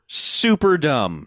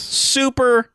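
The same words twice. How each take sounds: First: Super dumb said very slowly, dragged out; drawn out. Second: Super pitched way up for emphasis; emphatic. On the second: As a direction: hit super high and hard. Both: Real, not acted.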